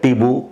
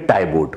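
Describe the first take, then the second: First: It starts like 'tee' and ends in 'oo'. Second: It starts like 'tie' and ends in 't'. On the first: The speaker calls it right. "टीबू इसको correct pronunciation है" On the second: The speaker calls it wrong. "जैसे लिखा हुआ है ऐसे ही pronounce करेंगे तो ये टाइबोट हो जाएगा"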